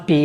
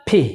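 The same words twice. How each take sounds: First: পি with no puff of air; wrong pronunciation. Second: পি with a strong puff of air; correct pronunciation. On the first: Teacher showing the wrong letter name, airless p. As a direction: say পি with an unaspirated p. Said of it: "it's not পি". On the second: Teacher modelling a candle-blowing p, strongly aspirated. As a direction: burst air through both lips on পি. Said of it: "একটা ধাক্কা দিবেন বাতাস". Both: Shown as a demonstration.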